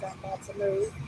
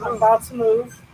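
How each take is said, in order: First: It is said at a normal, quieter volume. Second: It is said loudly.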